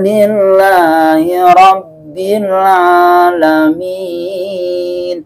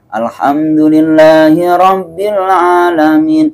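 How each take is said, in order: First: It is recited very slowly with long drawn-out sounds. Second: It is recited at a moderate, even pace.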